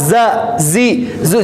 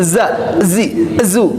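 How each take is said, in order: First: Each syllable starts directly on the z sound. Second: Each syllable starts with an added e vowel. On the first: The speaker calls it right. "langsung za, zi, zu" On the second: The speaker calls it wrong. "jangan za, zi, zu"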